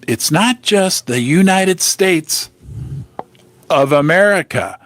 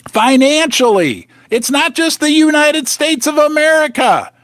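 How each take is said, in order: First: Said in the usual way. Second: Raised, higher fired-up voice; yelling. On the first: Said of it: "Not supposed to yell". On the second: Real, not acted. Vlogger hammering home world debt, yelling. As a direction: really push it out at the viewers. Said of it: "Sorry, I'm yelling at you".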